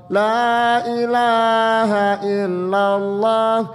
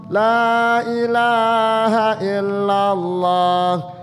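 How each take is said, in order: No difference in how they are said.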